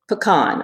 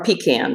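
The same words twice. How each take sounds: First: Pecan said puh-KAHN, stress on the second syllable; pecan pronounced "puh-KAHN". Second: Pecan said PEE-can, stress on the first syllable; pecan pronounced "PEE-can". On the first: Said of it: "how to pronounce the word". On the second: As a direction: say pecan with a long "ee" and a "can" ending. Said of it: "depending on how you pronounce it". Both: Shown as a demonstration.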